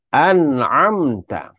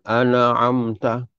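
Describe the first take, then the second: First: An'amta slow, nun closed; correct recitation. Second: An'amta with the nun bounced and the a stretched; wrong bounced nun. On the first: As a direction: recite an'amta slowly as the right way. (an'amta betul, perlahan) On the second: (an'amta salah, nun dilantunkan) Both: Shown as a demonstration. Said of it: "Jangan an'amta".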